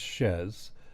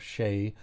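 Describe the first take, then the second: First: The name ends in a z sound. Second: The name ends in a long vowel sound. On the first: The speaker calls it right. "but it's Shez" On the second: The speaker calls it wrong. "mispronounce it with the French pronunciation"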